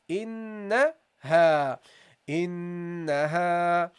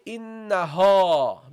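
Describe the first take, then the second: First: "Innaha" very slow, long nasal n and light ha; slow drawn-out recitation. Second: "innaha" with a heavy, dark ha; wrong heavy ha. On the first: Teacher recites the word slowly for the class. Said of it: "That's how you pronounce it". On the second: Teacher shows students the mistake, louder. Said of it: "don't say". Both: Shown as a demonstration.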